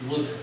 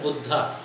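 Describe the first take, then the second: First: The word ends without a final vowel sound. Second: The word ends with a long final vowel. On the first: The speaker calls it right. "होता तो बुद्ध है" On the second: The speaker calls it wrong. "बहुत से लोग बुद्ध न बोल के बुद्धा बोलते हैं"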